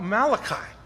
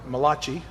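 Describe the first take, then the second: First: The name is said in a plain English way. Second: The name is said with an Italian-style sound.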